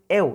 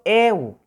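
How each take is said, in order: First: The e vowel is short. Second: The e vowel is held long. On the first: The speaker calls it wrong. "no es eu, no es simple" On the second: The speaker calls it right. "la letra E prolongada"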